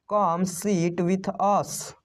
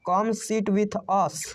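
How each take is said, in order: First: Slow inviting take with stress on come. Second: Said in the usual way. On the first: Shown as a demonstration. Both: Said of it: "आओ हमारे साथ बैठो".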